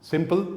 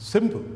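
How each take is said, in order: First: "सिंपल" with a clear full p; "सिंपल" p fully released. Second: "सिंपल" with p barely released; weak p. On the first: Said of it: "जब ये बोला जाएगा तो सिंपल". ("सिंपल" में पूरा प) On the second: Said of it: "प स्पष्ट रूप से नहीं बोला जाता है". ("सिंपल" में प हल्का) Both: Shown as a demonstration.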